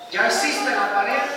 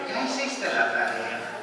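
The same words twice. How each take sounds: First: It is said in a harsh, scolding tone. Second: It is said while laughing. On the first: The child is being reprimanded. "lo va a tomar como un asunto de regaño" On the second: It is meant as a joke. "me estoy riendo y él lo va a tomar como una broma"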